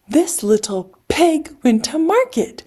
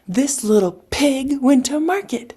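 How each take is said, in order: First: It is said at a slower, normal pace. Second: It is said at a faster pace.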